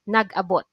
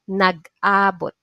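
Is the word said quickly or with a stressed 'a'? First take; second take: quickly; stressed a. First: The word is said quickly, without that stress. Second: The 'a' syllable carries clear stress. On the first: It means staying somewhere. "you must pronounce it fast" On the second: It means meeting up by coincidence. "the stress is on a"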